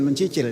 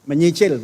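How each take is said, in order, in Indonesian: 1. Suku kata kedua diawali bunyi 'ch'. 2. Suku kata kedua diawali bunyi 'ny'. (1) "bukan mencicil ya. Kalau mencicil itu pecicilan gitu" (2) "Menyicil, bukan mencicil ya"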